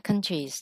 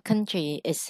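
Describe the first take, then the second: First: The ending is said without an extra syllable. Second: The ending is said as a separate extra syllable. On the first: The speaker calls it right. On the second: The speaker calls it wrong. "đọc là country is hay là countries chị?"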